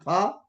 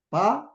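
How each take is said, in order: First: It starts with an f, lips not closed. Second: It starts with a p, lips closed first. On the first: The speaker calls it wrong. "not fa" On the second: The speaker calls it right. "You have to pronounce that as a pa"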